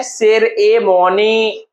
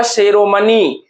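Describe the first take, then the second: First: सेरेमनी very slowly, broken into separate syllables. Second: Said in the usual way. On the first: Shown as a demonstration. Teacher answering how it is said, सेरेमनी very slowly split up. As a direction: stretch सेरेमनी out, part by part. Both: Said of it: "सेरेमनी को क्या कहते हैं".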